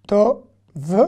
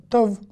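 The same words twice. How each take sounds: First: "To, v" dipisah jelas; split syllables. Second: Said in the usual way. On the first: Shown as a demonstration. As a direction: eja "To" lalu "v" terpisah.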